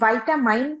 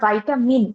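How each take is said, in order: First: The first syllable is 'vy', the last 'mine'. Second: The first syllable is 'vy', the last 'min'. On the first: "আবার অনেক সময় ভাইটামাইন, হুম, ভাইটামাইন pronounce করি" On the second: "আবার ভাইটামিন এইভাবেও pronounce করি"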